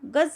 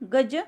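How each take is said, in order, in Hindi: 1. अंतिम व्यंजन दांतों के पीछे बनता है। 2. अंतिम व्यंजन तालु पर बनता है। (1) "दुसऱ्या वाक्यातील गज या शब्दातील ज चा उच्चार दंतमूल्य आहे" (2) "पहिल्या वाक्यातील गज ज चा उच्चार ज सारखा म्हणजे तालव्य आहे"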